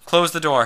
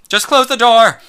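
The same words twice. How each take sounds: First: Firm raised command; firm order, stress on Close; demanding. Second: Very loud high cry, Close punched; loud impassioned demand, "close" hit hard; passionate shout. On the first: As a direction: demand it, louder and higher. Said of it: "he demanded". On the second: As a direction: yell it, full of passion. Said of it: "his voice was so full of passion". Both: Acted.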